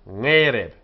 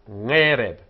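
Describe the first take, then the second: The two takes are said the same way.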